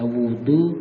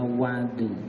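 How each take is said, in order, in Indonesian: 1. Vokal pertama berbunyi 'u'. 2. Vokal pertama berbunyi 'a'. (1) "bisa dibaca wudu" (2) "bisa dibaca wadu"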